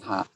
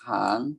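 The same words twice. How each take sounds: First: The syllable is said with a low tone. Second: The syllable is said with a rising tone. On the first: "ไม่เอก" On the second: "สระอางองูอ่านว่าหาง"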